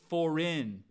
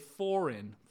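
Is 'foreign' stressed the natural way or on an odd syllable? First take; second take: odd; natural. First: The stress falls on an unnatural syllable. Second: The stress falls where speakers naturally put it. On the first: The speaker calls it wrong. "not ain't foreign ... putting the emphasis on the wrong syllable" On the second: The speaker calls it right. "If I'm going to say the word foreign, I'm going to say foreign"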